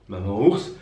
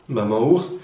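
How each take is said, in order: The two takes are said the same way.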